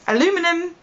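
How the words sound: The word is said with an American pronunciation.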